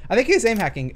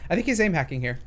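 First: Voice crack. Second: Said in the usual way. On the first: Real, not acted. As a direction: voice cracking, pushed louder. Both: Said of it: "Oh, that was a voice crack".

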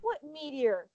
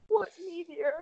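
First: Said in the usual way. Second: "What" pitched higher, in disbelief; incredulous repeat. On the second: Real, not acted. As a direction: ask again, baffled this time.

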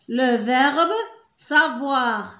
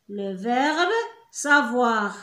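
No difference in how they are said.

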